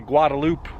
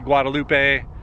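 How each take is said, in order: First: The name is said the local Texas way. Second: The name is said the speaker's home-region way. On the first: This is how people in Texas say it. "I know in Texas, people say" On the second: This is how people say it where the speaker is from. "Where I'm from, people say"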